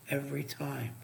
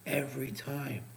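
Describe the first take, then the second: No difference in how they are said.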